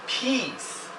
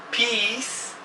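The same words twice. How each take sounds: Both takes have the same delivery.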